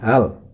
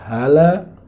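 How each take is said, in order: First: The word ends on a consonant, no vowel. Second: The word ends with the vowel a. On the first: The speaker calls it right. "harus dibaca hal" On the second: The speaker calls it wrong. "Tidak boleh dibaca hala"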